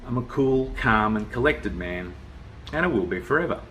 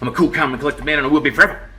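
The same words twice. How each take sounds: First: It sounds calm and unhurried. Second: It sounds angry and tense.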